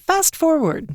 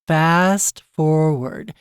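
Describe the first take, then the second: First: The phrase is said quickly. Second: The phrase is said slowly. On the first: "You almost want to say it quickly" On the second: "not just fast forward"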